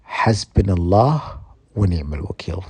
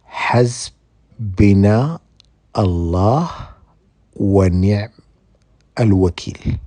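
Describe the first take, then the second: First: The phrase is said at a normal pace. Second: The phrase is said slowly and deliberately.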